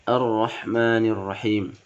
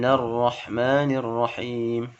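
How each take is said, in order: First: It starts fresh with an 'a' vowel. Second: It links on, dropping its opening vowel. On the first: The recitation stops before this verse. "ketika diputus dan ibtida di awal huruf al-nya, maka huruf hamzahnya berbaris fathah" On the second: The recitation continues from the previous verse. "Jadi kalau dilanjutkan"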